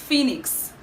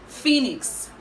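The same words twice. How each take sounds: Both takes have the same delivery.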